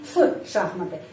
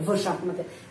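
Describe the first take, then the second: First: The first sound is a voiceless f. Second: The first sound is a voiced v. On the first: The speaker calls it right. "tetapi F шахматы" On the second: The speaker calls it wrong. "bukan V"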